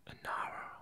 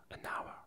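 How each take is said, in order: Both takes have the same delivery.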